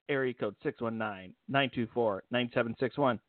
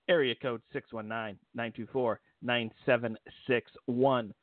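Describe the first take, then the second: First: The number is said fast. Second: The number is said slowly.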